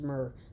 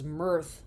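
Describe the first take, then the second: First: The word ends with an r sound. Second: The word ends with a th sound. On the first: The speaker calls it right. "just myrrh" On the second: The speaker calls it wrong. "thought it was mirth with th at the end"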